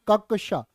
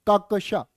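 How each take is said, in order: The two takes are said the same way.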